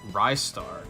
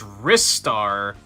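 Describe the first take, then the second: First: The first syllable sounds like 'rise'. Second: The first syllable sounds like 'wrist'. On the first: He is a rising star. The speaker calls it right. "He was Sega's rising star. Rise Star. Simple" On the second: He uses his wrists to grab things. The speaker calls it wrong. "Ristar because he uses his wrists to grab things"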